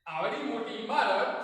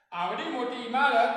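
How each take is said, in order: Both takes have the same delivery.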